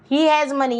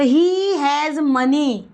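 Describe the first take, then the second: First: Said in the usual way. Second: Drawn out very slowly, each word apart; first slow take for learners to copy; slow model sentence. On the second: Shown as a demonstration. (बहुत धीरे, हर शब्द अलग) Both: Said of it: "teacher models then repeats".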